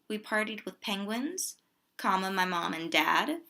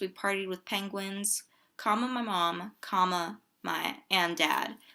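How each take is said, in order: First: There is no pause between mom and dad. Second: There is a pause between mom and dad.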